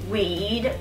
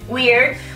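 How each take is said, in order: First: The R sound before the D is left out. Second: The R sound before the D is pronounced.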